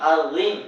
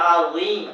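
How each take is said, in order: Both takes have the same delivery.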